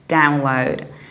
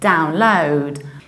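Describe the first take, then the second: First: The stress is on the first syllable. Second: The stress is on the second syllable. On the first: This is the American pronunciation. "So we stress the very first syllable" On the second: This is the British pronunciation. "So we stress the second syllable"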